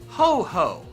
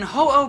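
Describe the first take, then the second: First: The second syllable starts with an h. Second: The second syllable starts with a vowel. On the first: The speaker calls it wrong. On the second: The speaker calls it right.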